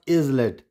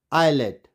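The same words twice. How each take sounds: First: Islet as IZ-let; S sounded. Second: Islet as EYE-let; silent S. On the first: Teacher shows the wrong reading, S sounded. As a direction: misread islet with a z. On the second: Teacher repeats the correct reading, silent S. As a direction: say islet with no z, falling. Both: Shown as a demonstration. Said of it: "it's not islet".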